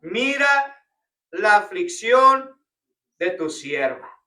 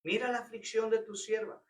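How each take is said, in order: First: Slow, louder, drawn-out plea on aflicción; pleading cry. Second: Softer, hushed restatement; quiet repeat. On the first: Pastor acting out Ana's cry to God, slow and pleading. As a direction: cry out "Mira la aflicción" like Ana begging God. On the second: Pastor repeating Ana's plea to the church, softly. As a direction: let "Mira la aflicción de tu sierva" fall quietly. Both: Shown as a demonstration. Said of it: "Eso es clamor".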